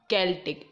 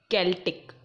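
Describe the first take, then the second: The two takes are said the same way.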